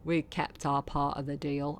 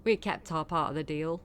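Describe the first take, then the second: No difference in how they are said.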